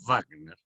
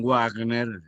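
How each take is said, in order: First: The name starts with a lip-and-teeth V sound. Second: The name starts with a rounded English-style W. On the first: The speaker calls it right. "sino Wagner, porque Wagner era alemán" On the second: The speaker calls it wrong. "no digan Wagner"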